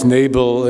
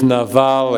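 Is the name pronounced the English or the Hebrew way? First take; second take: English; Hebrew. First: The name has its English pronunciation. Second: The name has its Hebrew pronunciation. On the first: "in English uh, pronunciation" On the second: "in Hebrew"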